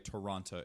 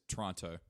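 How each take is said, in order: First: It is said the full, careful outsider way. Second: It is said the clipped, reduced local way. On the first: This is not how locals say it. The speaker calls it wrong. "they don't say Toronto" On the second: This is how locals say it. The speaker calls it right. "It's Toronto"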